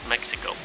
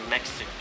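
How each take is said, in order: No difference in how they are said.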